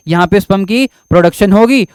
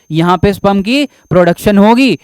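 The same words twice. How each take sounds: The two takes are said the same way.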